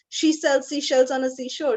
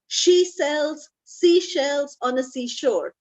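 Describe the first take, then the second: First: It is said at a fast pace. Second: It is said at a normal pace.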